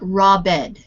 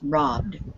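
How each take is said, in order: First: The word is said in two syllables. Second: The word is said in one syllable. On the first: The speaker calls it wrong. "not robbed" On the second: The speaker calls it right. "It is a one syllable word"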